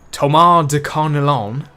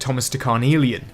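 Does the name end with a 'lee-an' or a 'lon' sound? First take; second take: lon; lee-an. First: The name ends with a short 'lon' sound. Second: The name ends with an extra 'lee-an' sound. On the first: The speaker calls it right. "is like how you're meant to say his name" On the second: The speaker calls it wrong. "I thought there was an I in the name after the L's"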